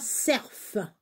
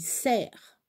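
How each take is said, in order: First: The final f is pronounced. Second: The final f is silent. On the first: The speaker calls it wrong. "on ne prononce pas cerf" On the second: The speaker calls it right. "On dit cerf"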